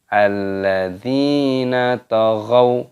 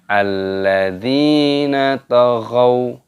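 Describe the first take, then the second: Both takes have the same delivery.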